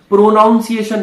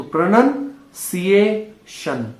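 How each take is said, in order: First: प्रोनाउंसिएशन said "pro-NOUN-ciation", louder and higher; प्रोनाउंसिएशन with long "pro" and "ow" vowel; mispronunciation. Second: प्रोनाउंसिएशन slowly as "pra-nun, see-ay, shun"; प्रोनाउंसिएशन with "nun", no "noun", drawn out; correct pronunciation. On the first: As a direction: put a full "noun" inside प्रोनाउंसिएशन. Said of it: "ये प्रोनाउंसिएशन नहीं होता". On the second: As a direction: break प्रोनाउंसिएशन into slow chunks, starting "pranun". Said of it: "ये प्रणन होता है". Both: Shown as a demonstration.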